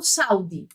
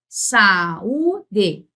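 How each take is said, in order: First: "saúde" run together as SAU-de; wrong diphthong version. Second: "saúde" slow, as sa-Ú-de in three parts; teacher spacing out "saúde" syllable by syllable; hiatus pronunciation. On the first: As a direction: squash the a and u of "saúde" into one stressed syllable. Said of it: "eu não falo saúde". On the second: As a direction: hold the stressed "ú" of "saúde" apart from the a. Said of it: "Então, eu falo saúde". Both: Shown as a demonstration.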